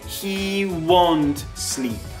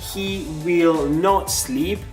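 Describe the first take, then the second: First: Will not is contracted into one syllable. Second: Will not is said as two full words. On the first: "I can say" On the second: "instead of saying"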